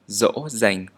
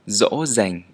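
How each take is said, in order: First: The first sound is like an English z. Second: The first sound is like an English z.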